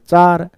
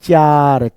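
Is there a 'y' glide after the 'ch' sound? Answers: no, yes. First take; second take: no; yes. First: It sounds like 'chaar', with no glide. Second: It sounds like 'chyaar', with a y glide. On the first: The speaker calls it right. "जैसे हम बोलते हैं ना पार, सार, वैसे ही चार" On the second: The speaker calls it wrong. "चार कोई उच्चारण नहीं होता। जैसे प्यार"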